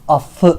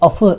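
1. f sesi uzun ve çift. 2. f sesi kısa ve tek. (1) "affı deriz" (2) "afı demeyiz"

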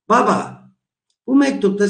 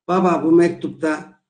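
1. 'Baba' seslenerek söylenir, ardından bir duraklama gelir. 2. Kelimeler 'baba'dan sonra duraksamadan devam ediyor. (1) "özne olarak düşünmezsem ses tonuma bakınız" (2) "bunu özne olarak düşünürsem baba bu mektupta diye başlıyorum"

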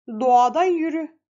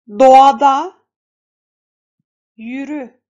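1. Cümle hızlı okunuyor. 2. Cümle yavaş okunuyor. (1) "Şimdi hızlandıralım" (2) "yavaş bir şekilde okuduk"

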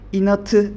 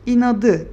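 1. Son ünlüden önceki ünsüz, sert t sesidir. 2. Son ünlüden önceki ünsüz, yumuşak d sesidir. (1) "İnatı demiyoruz" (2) "İnadı diyoruz"

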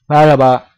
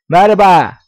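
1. Ses mekanik ve robot gibi. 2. Ses bir çocuğunki gibi ince ve cızırtılı. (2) "Örneğin çocuk yapayım. Çocuk böyle çok çıtlak sesle"

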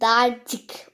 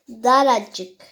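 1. Kelimenin iki hecesi var, r'den sonra ünlü yok. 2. Kelimenin üç hecesi var, r'den sonra bir ünlü var.

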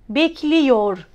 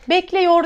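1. -yor ekinden önce gelen ünlü dar i'dir. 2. -yor ekinden önce gelen ünlü geniş e'dir.

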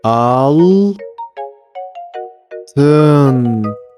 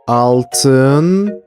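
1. Kelime yavaş yavaş, hece hece okunuyor. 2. Kelime hızlı bir şekilde tek bir birim olarak okunuyor.

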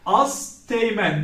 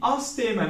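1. teğmen'den önce bir t sesi çıkarılır. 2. teğmen'den önce hiç t sesi çıkarılmaz. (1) "değil" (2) "ünsüz düşmesine uğramıştır"

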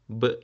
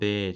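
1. Yalnızca çıplak ünsüz sesi çıkarılır. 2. Harf, tam adıyla söylenir. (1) "Ses olarak yaparsak" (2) "bakın adını söylüyorum"

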